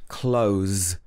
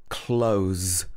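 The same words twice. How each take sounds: The two takes are said the same way.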